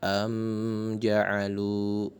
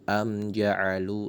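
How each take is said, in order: First: The m sound is pressed and held longer. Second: The m sound is short and clear. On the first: The speaker calls it wrong. "mim matinya tidak ditekan sebagaimana" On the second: The speaker calls it right. "langsung, tidak ada penekanan di situ"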